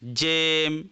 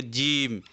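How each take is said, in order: First: जेम with a long "ay", jaym; majhul vowel. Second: जीम with a long pure "ee", jeem; maruf vowel. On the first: Teacher shows the reading people don't use, जेम with majhul "e". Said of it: "अगर इसको मजहूल पढ़ते तो कैसे पढ़ते". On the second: Teacher models how Urdu reads it, जीम with maruf "ee". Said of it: "मारूफ पढ़े थे". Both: Shown as a demonstration.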